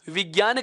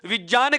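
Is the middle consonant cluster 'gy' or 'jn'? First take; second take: gy; jn. First: The middle cluster sounds like 'gy'. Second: The middle cluster sounds like 'jn'. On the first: The listener will understand it. "समझ पाएगा" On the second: The listener will not understand it. "समझ नहीं पाएगा"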